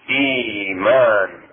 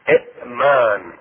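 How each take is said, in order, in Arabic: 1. تُمدّ الحركةُ الأولى مدًّا طويلًا لمدة حركتين. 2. تُغلق الهمزةُ المقطعَ الأولَ القصيرَ. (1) "فتفتح بعد الإبدال إيمان إيمان، المد حركتين" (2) "أصلهما إئمان"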